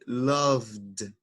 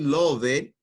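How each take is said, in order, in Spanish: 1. La terminación es un sonido d simple. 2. La terminación se pronuncia como una sílaba extra. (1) "vamos a decir loved" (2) "en vez de decir love it"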